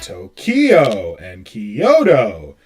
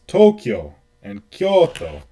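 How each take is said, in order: First: The first syllables of the names are not stressed. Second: The first syllables of the names are stressed. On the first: The speaker calls it wrong. "we say things like" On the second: The speaker calls it right. "the emphasis is on the first syllable"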